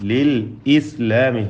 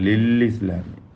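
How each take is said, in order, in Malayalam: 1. 'islami' ക്ക് മുമ്പുള്ള ഹംസ വ്യക്തമാണ്. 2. 'islami' ക്ക് മുമ്പുള്ള ഹംസ ഒഴിവാക്കപ്പെടുന്നു. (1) "ഹംസ വ്യക്തമാക്കണം" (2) "അത് തെറ്റ"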